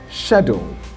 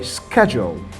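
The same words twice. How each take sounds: First: It is said with a British accent. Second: It is said with an American accent. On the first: "I'm going to be starting with the British pronunciation" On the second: "The Americans are going to say schedule"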